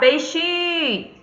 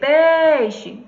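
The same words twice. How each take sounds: First: The stress is on the second syllable. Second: The stress is on the first syllable. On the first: The speaker calls it wrong. "Você não vai chamar peixe" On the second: The speaker calls it right. "Pei é que se prolonga"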